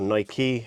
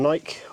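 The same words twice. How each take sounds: First: It is said the local American way. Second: It is said the speaker's own British way.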